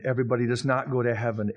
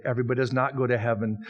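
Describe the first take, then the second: First: "not" punched hard and falling; stress on not. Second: "does" hit firmly, the rest quicker; stress on does. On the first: Preacher stressing "not" to the congregation. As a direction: lean on the word "not". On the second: Preacher hammering "does" home to the listeners. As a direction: put the weight on "does". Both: Shown as a demonstration. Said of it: "No, everybody does not go to heaven".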